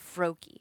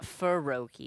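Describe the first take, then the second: First: The F and R form one tight cluster. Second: A vowel is inserted between the F and R. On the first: The speaker calls it right. "F R" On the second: The speaker calls it wrong. "It's not F U R"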